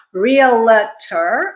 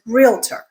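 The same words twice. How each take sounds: First: Realtor drawn out as REE-uh-luh-ter; wrong, extra syllable. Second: Realtor said as REEL-ter; correct, two syllables. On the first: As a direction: add a middle syllable to realtor, slowly. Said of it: "It is not realtor". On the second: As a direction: say realtor with no vowel after the L. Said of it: "it is realtor". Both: Shown as a demonstration.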